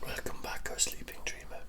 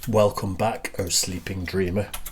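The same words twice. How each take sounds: First: It is said in a whisper. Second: It is said in a normal voice.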